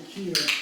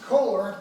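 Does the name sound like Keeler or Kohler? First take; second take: Keeler; Kohler. First: The name is said as Keeler. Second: The name is said as Kohler. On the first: The speaker calls it right. "but it's actually Keeler" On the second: The speaker calls it wrong. "A lot of people pronounce it Kohler"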